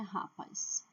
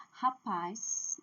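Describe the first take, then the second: First: Rapaz stressed on RA, with weak -paz; wrong stress. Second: Rapaz with a long, strong -PAZ; stress on last syllable. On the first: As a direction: misstress rapaz on its first syllable. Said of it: "não é rapaz". (rapaz com a primeira sílaba forte) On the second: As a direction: push the final syllable of Rapaz. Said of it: "Força na última". (Rapaz com força na última sílaba) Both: Shown as a demonstration.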